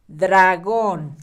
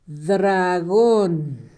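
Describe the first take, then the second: First: Said in the usual way. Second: "dragón" stretched slowly, syllable by syllable; slow, drawn-out "dragón" for dictation; sounding out. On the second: Shown as a demonstration. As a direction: draw out each syllable of "dragón" as if writing it. Sounds out word while writing.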